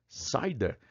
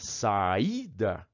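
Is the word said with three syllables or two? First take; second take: two; three. First: The a and i merge into one syllable. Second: The i is its own stressed syllable. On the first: The speaker calls it wrong. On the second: The speaker calls it right.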